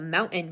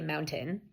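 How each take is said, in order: First: The T is pronounced as a glottal stop. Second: The T is pronounced as a full T. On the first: "the glottal stop version, the mountain version" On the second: "you can definitely say mountain, that's fine"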